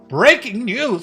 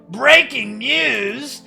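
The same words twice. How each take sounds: First: It is said in his normal voice. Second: It is said in a put-on Birdly voice.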